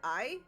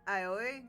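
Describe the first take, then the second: First: The name sounds like the single word 'eye'. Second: The name sounds like the start of 'aioli'. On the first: "I've also heard it I" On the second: "kind of like aioli"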